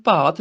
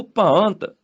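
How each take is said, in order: First: ਭਾਤ with no nasal sound; wrong pronunciation demo. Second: ਭਾਂਤ with a long nasal vowel; nasalised pronunciation. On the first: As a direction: say ਭਾਤ with a plain oral "aa". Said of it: "ਇਹਨੂੰ ਭਾਤ ਨਹੀਂ ਬੋਲਣਾ". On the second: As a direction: say ਭਾਂਤ with the nasal dot sounded. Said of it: "ਬਿੰਦੀ ਨਾਲ ਉਚਾਰਨ ਹੋਏਗਾ". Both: Shown as a demonstration.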